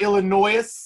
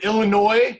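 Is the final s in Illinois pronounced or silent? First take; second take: pronounced; silent. First: The final s is pronounced. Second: The final s is silent. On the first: The speaker calls it wrong. "not Illinois, what people sometimes say because it does end in an S" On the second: The speaker calls it right. "It is in the state of Illinois"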